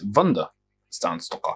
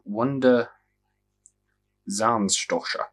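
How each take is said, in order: First: The name is said with German pronunciation. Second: The name is read with English pronunciation.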